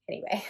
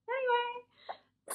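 First: Said in the usual way. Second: High, slow, drawn-out sing-song; goofy singsong sign-off; sing-song anyway. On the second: Pretend. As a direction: stretch it out way up high, playfully. Repeats word in silly voice.

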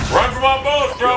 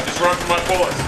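First: Raised, higher-pitched exasperated repeat; exasperated call. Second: Said in the usual way. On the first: Real, not acted. Gamer calling after a fleeing enemy, exasperated call.

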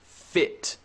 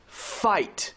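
First: "Fit" with a short, relaxed i; short-vowel demo of "Fit". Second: "Fight" with a wide, long i glide; long-vowel demo of "Fight". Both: Shown as a demonstration. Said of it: "very different than the long I sound".

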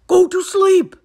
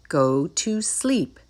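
First: High, very loud exclamation; shout. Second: Said in the usual way. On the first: A narrator's reading. Toad remembering his list, shouting. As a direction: shout it in sudden realisation. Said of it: "shouted Toad".

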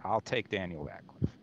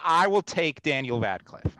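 First: The same line repeated much softer, giving in; Daniel Radcliffe said under the breath, resigned; muttered resignation. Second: Said in the usual way. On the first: Shown as a demonstration.

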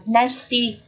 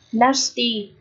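First: NASTY with "æ" as in "cat"; first vowel of "nasty" halfway between E and A; half-E half-A sound. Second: NASTY with a long "ah"; long A sound. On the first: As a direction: say "nasty" as NASS-tee. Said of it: "là âm nửa E nửa A này". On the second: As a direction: say "Nasty" as NAH-stee. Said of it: "là âm A dài này". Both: Shown as a demonstration.

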